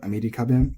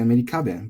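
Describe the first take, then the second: First: "Amerika ben" said flat, no drop; flat accent. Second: "Amerika ben" with accent on the middle, falling; accented "Amerika ben", the wrong way. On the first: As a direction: keep "Amerika ben" level to the end. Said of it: "that's the rule here". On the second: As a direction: incorrect pitch accent. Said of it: "They're not gonna say". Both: Shown as a demonstration.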